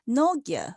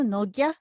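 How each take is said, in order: First: The pitch is high and falling. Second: The pitch is low and rising. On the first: Someone is calling the person loudly. "when the speaker calls a person loudly, uh, they turn to have the high falling pitch" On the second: The name is said in its ordinary form. "which generally have the low rising pitch"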